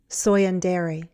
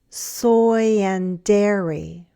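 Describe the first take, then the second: First: The phrase is said faster. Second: The phrase is said slowly. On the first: "and then faster" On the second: "first slowly"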